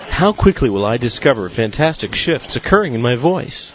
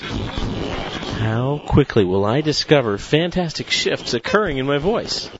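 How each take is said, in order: First: It is spoken at a fast, steady pace. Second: It starts slower and speeds up throughout. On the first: "with a higher or faster pace" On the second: "now with an increasing pace"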